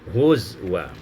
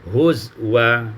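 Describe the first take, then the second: First: A w sound is heard in the middle. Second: A w sound is heard in the middle.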